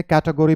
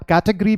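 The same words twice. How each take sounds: First: कैटेगरी in four syllables, "KAT-uh-go-ree"; American कैटेगरी with the o sounded; American pronunciation. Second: कैटेगरी squeezed to three syllables, "KAT-uh-gree"; British कैटेगरी, no "o" before the r; British pronunciation. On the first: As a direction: say कैटेगरी with a full "go" before "ree". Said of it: "American English convention". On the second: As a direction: say कैटेगरी ending in a quick "gree". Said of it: "British English convention". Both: Shown as a demonstration.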